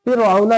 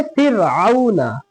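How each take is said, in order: First: फ़िरऔना with a thick, backed r; wrong heavy ra. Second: फ़िरऔना slow, with a light r; correct thin ra. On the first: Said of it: "फ़िरऔना नहीं पढ़ेंगे". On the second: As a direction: draw out फ़िरऔना, keeping its र thin. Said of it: "पतला पढ़ेंगे". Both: Shown as a demonstration.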